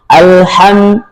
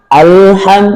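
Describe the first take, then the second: The two takes are said the same way.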